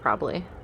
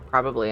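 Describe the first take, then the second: First: A middle syllable is dropped, sounding like probly. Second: All three syllables are said in full. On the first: The speaker calls it wrong. "instead of probably" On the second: The speaker calls it right. "I'm trying to work on saying probably"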